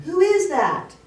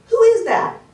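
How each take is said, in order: First: High, loud mimicked echo; acted voice calling back. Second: High, loud call into the forest; acted child shouting to a stranger; boy calling out. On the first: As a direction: echo the boy's call from afar. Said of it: "In the background". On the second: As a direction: call out a startled challenge, much higher. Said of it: "the little boy falls".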